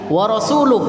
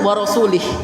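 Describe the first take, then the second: First: The final word ends with a 'u' vowel. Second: The final word ends with an 'i' vowel. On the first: The messenger also disowns the idolaters. The speaker calls it right. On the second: God also disowns the messenger. The speaker calls it wrong. "Ada orang baca wa rasulih. Itu artinya sangat berbeda jauh"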